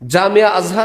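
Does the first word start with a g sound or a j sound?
j sound. The first word starts with a j sound. This is the standard Arabic form.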